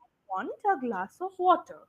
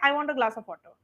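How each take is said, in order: First: It is said with pauses and stresses. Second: It is said flat, in a monotone.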